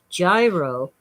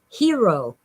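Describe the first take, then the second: First: The word begins with a J sound. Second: The word begins with an H sound. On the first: This is how most people around here say it. The speaker calls it wrong. "what most of us pronounce as gyro" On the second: This is the real pronunciation. The speaker calls it right. "but it's really hero"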